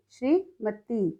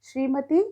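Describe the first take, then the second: First: श्रीमती slowly split, "shree, mati"; misspelt reading. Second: Said in the usual way. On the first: Shown as a demonstration. Teacher reads the wrong column, श्रीमती slow and broken up. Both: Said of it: "सही और गलत".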